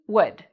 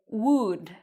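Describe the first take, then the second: First: The vowel is short, with spread lips. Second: The vowel is said with rounded lips. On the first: The speaker calls it right. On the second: The speaker calls it wrong.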